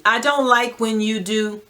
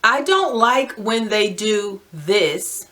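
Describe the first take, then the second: First: Said in the usual way. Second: Slow, deliberate dictation of the phrase; slowly dictating a template sentence. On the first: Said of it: "Do that for as many times as you need". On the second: Shown as a demonstration. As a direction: spell out "I don't like when they do this" slowly, word by word, as if for writing it down. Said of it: "And write this phrase out".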